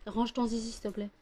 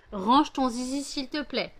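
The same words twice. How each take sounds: First: Said in the usual way. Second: Louder, higher scolding command; firmer repeated order. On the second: Real, not acted. Owner telling her dog off a second time, louder and firmer. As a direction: insist this time, raise your voice.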